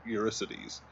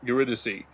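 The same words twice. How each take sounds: First: Eurycides said as "yur-ih-SY-deez"; mispronounced name. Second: Eurydice said as "yuh-RID-uh-see"; corrected name. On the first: Corrected by friend, says Eurycides wrongly. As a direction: say Eurycides with a -sides ending. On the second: After correction, repeating Eurydice properly. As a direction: say Eurydice with -dice as "dee-see". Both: Real, not acted.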